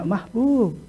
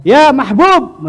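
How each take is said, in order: First: Soft call. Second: High, drawn-out, louder call. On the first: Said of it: "Nggak ada mereka". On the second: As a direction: call out the name slowly across the room. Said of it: "manggil itu dengan biasa". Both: Shown as a demonstration.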